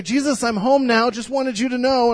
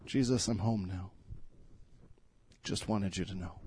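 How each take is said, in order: First: Put-on higher and louder, a child's cheerful announcement; a hint of an excited little girl running home; lightly voiced little girl. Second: Much softer and lower, tender; hushed prayer. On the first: Little daughter greets nativity scene. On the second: Acted. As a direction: whisper it as a quiet prayer. Pastor repeats daughter's words as prayer.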